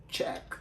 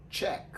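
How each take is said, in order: First: "check" with tch and a short e; English check. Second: "Check" repeated as tch plus short e; English check. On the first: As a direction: say "check" slowly for a class. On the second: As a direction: say "Check" again as the model for the class. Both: Shown as a demonstration. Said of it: "les prononce comme".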